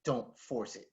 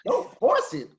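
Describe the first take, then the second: First: Much softer, low murmur; coach's soft aside in the ear; quiet advice. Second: Much higher, baffled repeat; incredulous echo. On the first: Retold or imitated. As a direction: lean in and say it under your breath. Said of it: "Leans over and he's like". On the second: Real, not acted. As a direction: throw the words back in disbelief. Echoing the coach in disbelief.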